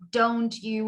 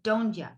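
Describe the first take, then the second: First: The word 'you' is said in full. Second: The word 'you' is reduced to 'ya'. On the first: "Instead of saying don't you" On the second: "we would say don't ya"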